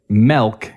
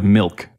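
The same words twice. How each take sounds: First: "milk" with an E as in elk; "melk" for milk. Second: Said in the usual way. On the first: Retold or imitated. Showing how people mispronounce it, "milk" as "melk". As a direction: open the vowel of "milk" to "eh". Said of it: "People will say". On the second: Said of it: "instead of".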